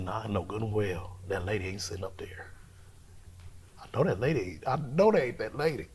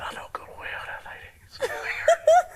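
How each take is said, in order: First: Hushed disbelieving whisper. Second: Laughing whisper. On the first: Spotting the mother in the dark, whispering in disbelief. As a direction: whisper it, not believing your eyes. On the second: Seeing the three mothers, whispering through laughter. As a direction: whisper breaking into a high laugh. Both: Retold or imitated. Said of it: "I said".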